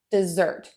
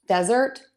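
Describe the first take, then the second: First: "dessert" as de-ZERT, falling to a close; strong second syllable on "dessert", tune down; stress on second syllable. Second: "Desert" as DEZ-ert, left rising; strong first syllable on "Desert", tune up; stress on first syllable. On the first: Teacher repeats the contrast, second syllable of "dessert" stressed. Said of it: "we typically stress syllable two". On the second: Teacher repeats the contrast, first syllable of "Desert" stressed. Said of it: "we typically stress syllable number one". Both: Shown as a demonstration.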